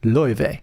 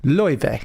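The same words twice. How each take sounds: First: The name is said in the Icelandic-style way. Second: The name is said in the Icelandic-style way.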